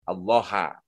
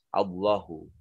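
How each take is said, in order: First: The word ends in an 'a' vowel. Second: The word ends in a 'u' vowel. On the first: The word is the object of the sentence. The speaker calls it wrong. "dibaca dengan harkat akhir fathah" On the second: The word is the subject of the sentence. The speaker calls it right. "semestinya berharkat akhirnya dibaca dengan dhammah"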